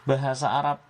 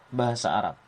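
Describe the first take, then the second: Both takes have the same delivery.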